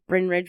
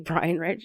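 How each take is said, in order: First: The first name is one short syllable, 'Brin'. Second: The first name has two syllables, 'Bry-an'. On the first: The speaker calls it wrong. "I've always kept thinking Bryn" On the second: The speaker calls it right. "but it's actually Brian Ridge"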